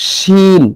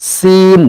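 First: শিন with a hushing "sh" and long held "ee"; thick "shh" opening a stretched শিন. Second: সিন with a sharp "s" and long held "ee". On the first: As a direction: say শিন higher, drawn out, opening on a full "sh". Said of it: "আর একটা হলো". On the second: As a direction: say সিন higher, drawn out, with a plain "s", no hush. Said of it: "আর যখন সিনের উচ্চারণ করব আমরা". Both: Shown as a demonstration.

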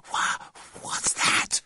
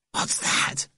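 First: Slow, stammered, breathy whisper of fright; frightened boy, voice gone to breath; hoarse wobble. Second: Put-on frightened boy's voiceless whisper; scared, breath-only question; terrified whisper. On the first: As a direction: stutter it out in a terrified hoarse whisper. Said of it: "came out in a hoarse wobble". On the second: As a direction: whisper it in fear of a noise outside. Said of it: "came Timothy's terrified whisper". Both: A narrator's reading.

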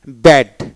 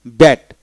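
The two takes are said the same way.

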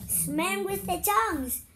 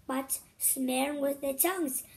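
First: Excited repeat. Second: Said in the usual way. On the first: Real, not acted. Child tells mother excitedly.

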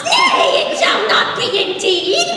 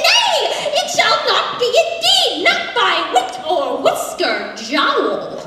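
First: Very high, loud shriek of NAY; frantic pig refusal. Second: High, loud theatrical refusal; defiant pig. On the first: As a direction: squeal NAY, then forbid it theatrically. Pig blocks the door. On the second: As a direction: cry NAY up high, then proclaim the refusal. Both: Acted.

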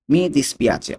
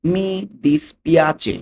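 First: Said in the usual way. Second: মি dispiace drawn out slowly, a bit higher; very slow demo. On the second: Shown as a demonstration. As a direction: spell out মি dispiace slowly for learners. (খুব ধীরে উচ্চারণ)

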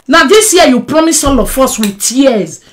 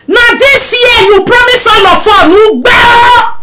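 First: Said in the usual way. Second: Shouting. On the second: Acted. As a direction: yell it at her, accusing. Shouting at Mama B.

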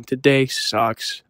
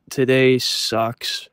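First: A drawn-out morning moan; slow sulky drone; slow gloomy groan. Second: Slow gloomy groan. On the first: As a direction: draw out every syllable, sulking. Repeating the gloomy thought. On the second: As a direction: drag out today sucks, dead slow. Gloomy thought about the day. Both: Retold or imitated.

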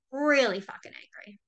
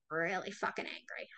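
First: "Really fucking angry" said louder, punching "Really"; stressed repeat. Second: Said in the usual way. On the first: Shown as a demonstration. Repeating to viewers, louder on "Really". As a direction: hit "Really" hard the second time.

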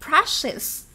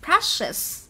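First: Brushes said as brush-iz, ending clearly on iz. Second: Brushes repeated for the class, ending on a clear iz. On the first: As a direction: stress that final iz syllable in brushes. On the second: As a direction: model Brushes again with a firm iz ending. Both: Shown as a demonstration. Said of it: "chúng ta sẽ đọc là".

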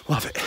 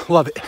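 First: Much softer, trailing repeat; softer echo. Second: Said in the usual way. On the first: Real, not acted. Runner on a jog repeating to himself, softly. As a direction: let it fade to a murmur. Soft echo of previous line.

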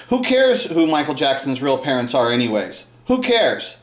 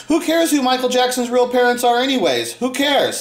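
First: Said in the usual way. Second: Higher, sneering imitation of "Who cares"; mocking imitation. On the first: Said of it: "Nicholas Stoller said to me". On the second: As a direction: mimic the fans' dismissive "Who cares". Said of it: "When they say that line".

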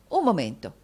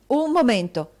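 First: Said in the usual way. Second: "Un momento" detto forte e di colpo, più alto; esclamato in fretta. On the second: Acted. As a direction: interrompe di scatto, deciso. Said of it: "esclamò Nicola in fretta". (Nicola la interrompe bruscamente, a voce alta)

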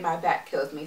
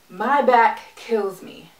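First: Said in the usual way. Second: "My back kills me" slow and weighty; emphatic complaint. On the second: Real, not acted. Stresses her complaint, then repeats it.

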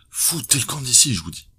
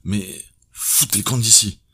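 First: Much higher, louder yell; detective actually yells at her to leave; shouted order. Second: Higher, louder furious yell; detective's hidden thought yelling at her; angry shout. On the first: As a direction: bellow her out. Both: A narrator's reading.

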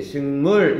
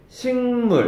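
First: 식물 with the last syllable 물 punched; light 식, hit 물 in 식물; wrong stress on 물. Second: 식물 with the first syllable 식 leaned on; strong 식, lighter 물 in 식물; stress on 식. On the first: Teacher showing what not to say, 식물 stressed on 물. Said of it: "하지 않는단 말이야". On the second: Teacher showing front stress, 식물 stressed on 식. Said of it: "이렇게 앞에 강세가 오지". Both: Shown as a demonstration.

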